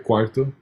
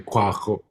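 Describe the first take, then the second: First: The middle consonant is a plain R sound. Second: The middle consonant is a throaty ch sound. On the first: The speaker calls it right. "it has that R sound" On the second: The speaker calls it wrong. "You wouldn't say cuajo"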